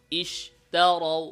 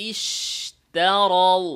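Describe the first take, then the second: First: ইশতারাউ very slow, শিন weak; wrong pronunciation. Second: ইশতারাউ slowly with a strong শিন; correct pronunciation. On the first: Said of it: "এভাবে না". (দুর্বল শিন, ভুল) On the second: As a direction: model ইশতারাউ with full শিন. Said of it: "বলতে হবে ইশতারাউ।". (সঠিক জোরালো শিন) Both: Shown as a demonstration.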